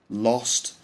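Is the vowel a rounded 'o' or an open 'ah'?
o. The vowel is a short rounded 'o' sound.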